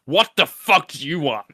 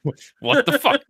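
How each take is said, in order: First: Snarling, loud and higher, fed up; angry chef voice. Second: Imitating the French chef, much higher and louder; a squeaky French cook, stunned; mock French accent outburst. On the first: Acted. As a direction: bite their head off as a furious cook. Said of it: "I think, is angry people". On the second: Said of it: "decided to do a French accent chef".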